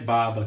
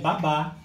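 First: The stress is on the first syllable. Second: The stress is on the last syllable. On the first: Drool that comes out of the mouth. "Aqui é baba que sai pela boca" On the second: A nanny who looks after babies. "aqui é babá, a babá que cuida dos bebês"

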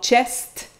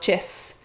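First: The word ends with both S and T sounds. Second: The word ends with an S sound only. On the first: "le S et le T" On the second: "on va simplifier puis on va prononcer souvent en « chess »"

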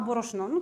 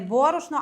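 First: The stress is placed the Transcarpathian dialect way. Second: The stress is placed the standard Ukrainian way. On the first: "так ставлю наголос, як ми кажемо на Закарпатті" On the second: "чому я називаю не борошно"

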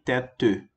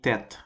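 First: A vowel sound is heard after the final t. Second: The word ends on the t, no final vowel. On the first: The speaker calls it wrong. "Eu não falei tête" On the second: The speaker calls it right. "eu falei tête. Por quê? Porque o E sem acento no final fica um E mudo"

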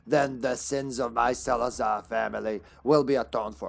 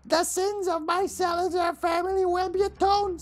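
First: It is read in the speaker's normal voice. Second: It is read imitating Salazar's voice.

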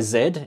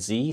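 First: The letter is said as 'zed', non-American. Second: The letter is said as American 'zee'.

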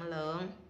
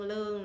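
First: The syllable has a low, heavy, cut-off tone. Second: The syllable has a level tone.

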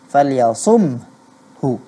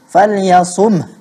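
First: The word ends with a full 'hu' syllable. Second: The word ends on a bare 'h' without vowel. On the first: "Karena saat kita mengucapkan huruf H, kedua bibir kita harus terbuka" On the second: "Hanya kita tidak bunyikan hu-nya"

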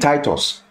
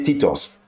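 First: The name is said with an English pronunciation. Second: The name is said with a Greek pronunciation. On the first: "The English will say Titus" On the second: "The Greeks say Titus"

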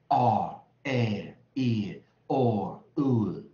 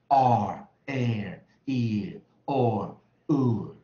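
Both takes have the same delivery.

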